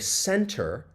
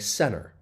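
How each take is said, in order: First: The T after the N is clearly pronounced. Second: The T after the N is dropped. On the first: The speaker calls it wrong. "I don't say center" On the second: The speaker calls it right. "I would say center"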